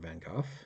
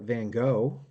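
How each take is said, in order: First: The name is said the native, accurate way. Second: The name is said the common English way. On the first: The speaker calls it right. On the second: The speaker calls it wrong.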